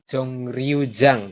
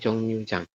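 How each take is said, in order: First: The second word starts with an r sound. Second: The second word starts with an n sound. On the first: This is how it is written. The speaker calls it wrong. "Tulisannya Jong Ryujang" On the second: This is how it is read aloud. The speaker calls it right. "tapi dibacanya Jong Nyujang"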